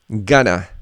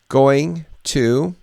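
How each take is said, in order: First: The words are reduced into one short word. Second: Both words are said fully and separately. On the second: "Here we have going to"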